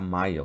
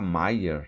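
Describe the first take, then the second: First: The name ends without an r sound. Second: The name ends with an r sound. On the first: "Ele pronuncia Maia" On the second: "ele não consegue pronunciar nunca Maier"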